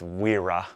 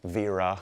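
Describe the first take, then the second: First: The name begins with a W sound. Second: The name begins with a V sound. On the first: The speaker calls it wrong. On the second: The speaker calls it right.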